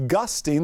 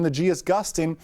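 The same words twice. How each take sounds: First: Said in the usual way. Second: The G in "gusting" stressed, as if spelling the letter. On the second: Shown as a demonstration. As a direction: lean on the G in "the G is gusting".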